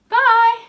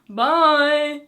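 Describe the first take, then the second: First: It is said in a very high pitch. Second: It is said in a lower pitch.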